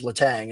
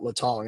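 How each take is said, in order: First: The last syllable rhymes with 'bang'. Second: The last syllable rhymes with 'song'. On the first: This is how most local people say it. The speaker calls it wrong. "all I heard people say was Letang" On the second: This is the form the speaker thinks few people know. The speaker calls it right. "and not Letong"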